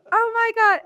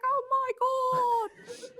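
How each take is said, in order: First: Put-on loud, high yelp in own accent; mock panic. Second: High, drawn-out Australian wail; Australian accent. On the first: Retelling her own reaction to the bat, mock panic. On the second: Retold or imitated. Imitating her Australian roommate during the bat scare, Australian accent. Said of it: "Australian. She's like".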